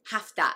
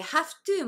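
First: "have to" as "hafta"; sound-changed HAVE TO. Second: Said in the usual way. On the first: Shown as a demonstration. Teacher showing sound change, "have to" said as "hafta". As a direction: blend "have to" into one word with f, "hafta". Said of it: "音声変化してhave toになります". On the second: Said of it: "発音は音声変化して".

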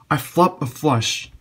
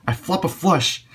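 First: Slow, loud and delighted; excited, drawn out. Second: High, delighted exclaim; thrilled cry at the cards; excited. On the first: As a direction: savour every word of it. Repeats the good news slower. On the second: Excited at flopping a flush. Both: Real, not acted.

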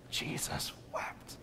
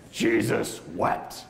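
First: Slow, voiceless whisper; whispered repeat. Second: Slow and deliberate, fully voiced; slow, solemn quote. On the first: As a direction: breathe the verse out slowly. Repeats beloved verse in whisper. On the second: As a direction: draw out both words with weight. Answers own question, slow quote. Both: Shown as a demonstration.

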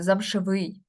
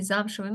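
First: ЗамшевИЙ, stress shifted onto the last syllable; wrong final stress. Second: ЗАМшевий, stressed on the first syllable; correct first-syllable stress. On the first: Teacher showing what we cannot say, замшевий stressed on its ending. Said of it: "Ми не можемо сказати". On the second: Teacher showing the proper form, замшевий stressed on ЗАМ. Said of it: "Ми не можемо сказати замшевий". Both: Shown as a demonstration.

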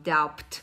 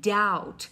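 First: "doubt" with the b sounded, like dabt; "doubt" said dowbt, voicing the silent b; wrong pronunciation. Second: "Doubt" said as dout, b silent, rhymes with out; "Doubt" like "out" with a d in front; correct pronunciation. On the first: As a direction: deliberately mispronounce "doubt" with a b. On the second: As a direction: model "Doubt" with no b sound at all. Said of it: "We say doubt". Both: Shown as a demonstration.

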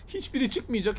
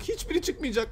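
First: Said in the usual way. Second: Higher, sing-song despair; higher whiny repeat. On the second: Real, not acted. Gamer moaning at the keys, higher whiny repeat. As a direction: say it again higher, half-whining.

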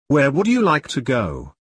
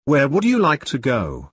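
No difference in how they are said.

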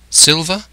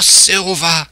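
First: SILVER as a question, rising at the end. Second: SILVER drawn out high after a sighed "Ah"; knowing confirmation. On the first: Jim asking the castaway, "Silver" rising in question. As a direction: ask "Silver" with a lifted ending. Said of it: "I asked". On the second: Castaway confirming the name, "Silver" as a knowing exclamation. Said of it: "says he". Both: A narrator's reading.

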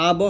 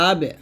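First: আব with a thick, rounded "o" echo after ব; wrong heavy bounce. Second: আবে with a light "e" echo after the b; thin qalqalah. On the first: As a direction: make the echo in আব too heavy. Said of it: "আব বললে মোটো হয়ে যায়". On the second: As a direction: keep the bounce in আবে thin. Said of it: "পাতলা করে বলতে হবে". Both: Shown as a demonstration.

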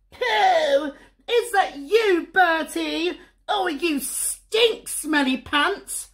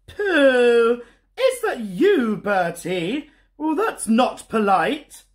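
First: Put-on much higher, bratty little-girl voice; whiny sister, drawn out slowly on the insults; sniffy big sister. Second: Higher, louder disapproving mum voice; a prim mum, nose wrinkled at the smell; sniffy Mum. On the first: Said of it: "sniffed Susie". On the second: Acted. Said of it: "sniffed Mum".

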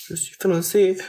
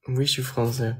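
First: Raised repeat. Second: Said in the usual way. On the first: Shown as a demonstration.

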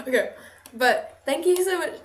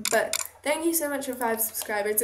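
First: Thanks that come out sounding sarcastic; accidentally sarcastic. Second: Said in the usual way. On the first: Real, not acted. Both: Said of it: "This sounds so sarcastic".

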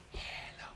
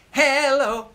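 First: Hello whispered, no voice; whispered echo. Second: Hello sung high and loud; loud call. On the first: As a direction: breathe hello as a soft whisper. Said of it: "you sing 'em back to me". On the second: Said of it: "I'll sing 'em, you sing 'em back". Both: Shown as a demonstration.

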